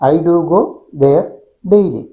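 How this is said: The first pause comes after "go". "I do go എന്ന് ഒരുമിച്ച് പറഞ്ഞതിന് ശേഷം ഗ്യാപ്പ്, പിന്നെ ദെയർ"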